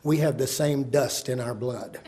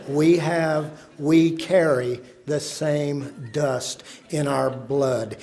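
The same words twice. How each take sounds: First: Said in the usual way. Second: Slow, measured "carry the same dust"; solemn emphasis. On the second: Shown as a demonstration. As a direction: weigh each word of "same dust in our blood". Closing line repeated for emphasis.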